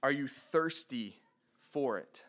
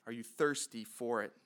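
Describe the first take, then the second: First: Said in the usual way. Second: Quieter repeat of the question; softer echo. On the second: Shown as a demonstration. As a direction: ask it again, softer and more inward.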